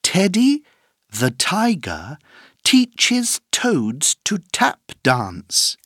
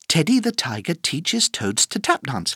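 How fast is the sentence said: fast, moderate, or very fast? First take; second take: moderate; fast. First: The sentence is said at a moderate speed. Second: The sentence is said at a fast speed.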